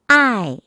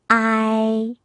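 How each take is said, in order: First: The pitch falls sharply from high to low. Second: The pitch stays high and level.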